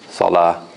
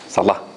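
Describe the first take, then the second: First: The vowel after the l is held long. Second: The vowel after the l is cut short. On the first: "the harf al-mad here is the alif. So we say salah" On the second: "If we didn't have harf al-mad there, we would have said salah, salah, like this"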